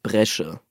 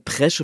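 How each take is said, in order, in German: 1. Das Wort beginnt mit einem B-Laut. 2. Das Wort beginnt mit einem P-Laut. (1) "statt Bresche" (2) "Ich sage Presche mit P"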